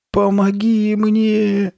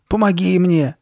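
First: High, drawn-out plea for help; slow, loud, high-pitched wail; thin frightened voice. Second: High, loud demand for help; louder, raised-pitch impatient plea. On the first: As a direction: stretch it out in a thin, scared little voice. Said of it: "протянула Карли Бет тонким испуганным голоском". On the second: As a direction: urge her to help, impatiently. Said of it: "нетерпеливо проговорила она". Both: A narrator's reading.

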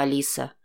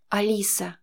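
First: Lower, soft menacing politeness; courteous captor. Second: Shaky, frightened little whisper of her name; terrified hostage barely getting it out; trembling whisper. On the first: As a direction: savor the name like a polite predator. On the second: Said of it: "дрожащим голосом прошептала она". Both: A narrator's reading.

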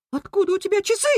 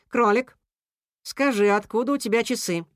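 First: Very high-pitched outraged question; rat squeal. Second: Composed, falling question; calming question. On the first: Rat confronting the rabbit over watches, squealing. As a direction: squeal it, rising at the end. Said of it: "взвизгнул Крыс". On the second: Cat questioning the rabbit amid uproar, calming. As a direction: ask evenly, seeking the facts. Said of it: "попытался успокоить зверей Кис-Кис". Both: A narrator's reading.

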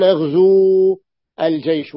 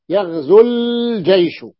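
First: يغزو الجيش with the و held long, yaghzuu al-jaysh; wrong long vowel. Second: يغزو الجيش with the و unsaid, yaghzu-l-jaysh; dropped long vowel. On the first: Teacher showing students the incorrect reading, long vowel kept. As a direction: say يغزو الجيش keeping the full long u before الجيش. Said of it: "لا يصح ذلك". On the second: Teacher showing students the correct reading, vowel dropped. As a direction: say يغزو الجيش running straight into الجيش without the long u. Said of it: "فلم، لم أنطق". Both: Shown as a demonstration.

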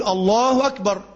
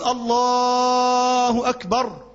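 First: Said in the usual way. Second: "الله أكبر" hugely stretched like a call to the whole mosque; very long drawn call. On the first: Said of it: "الصح مثلا تقول إيه؟". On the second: Shown as a demonstration. Imam lets the whole crowded mosque hear him, very long drawn call. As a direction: hold every vowel of "الله أكبر" very long so all can hear. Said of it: "أو يمد خالص".

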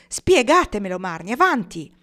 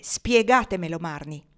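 First: Loud, insistent, raised at first; forceful demand. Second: Press, then let it drop; repeated demand. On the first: Pocket presses Marnie to explain, forcefully. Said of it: "chiese lui con forza". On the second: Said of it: "Pocket ripeté". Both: A narrator's reading.

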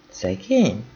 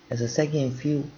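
First: "Szegény?" asked back, knowing and doubtful, falling at the end; pointed question. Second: Said in the usual way. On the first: Acted. Márta questioning Nelly's pity, knowingly echoing "Szegény?". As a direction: echo "Szegény?" as if you know more. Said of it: "Ezt úgy kérdezte Márta".

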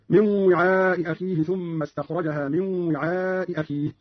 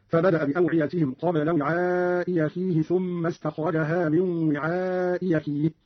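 First: Said in the usual way. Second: Slow, "وعاء أخيه" as wi'aa'i yakhihi; hamza turned to ya. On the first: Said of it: "قرأ قالون في الموضعين". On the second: Shown as a demonstration. Teacher showing Qalun's reading, "أخيه" said yakhihi. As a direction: start "أخيه" with y after "وعاء". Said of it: "بإبدال الهمزة الثانية ياء هكذا".

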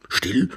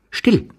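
First: Questioning repeat with a rising end; affronted, rising query; offended echo. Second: High, abrupt order for silence; sudden high-pitched hush command; curt command. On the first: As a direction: throw the word back as a question. Ivan echoes the order, offended. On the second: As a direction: cut him off sharply. Stranger cuts him off. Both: Acted.

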